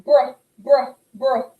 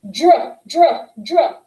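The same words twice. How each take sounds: First: The gentle br side of the contrast; smooth br. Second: "Druh" a bit louder and meaner; the harsh dr side of the contrast. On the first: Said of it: "You can see the difference". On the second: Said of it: "one gets a little bit louder". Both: Shown as a demonstration.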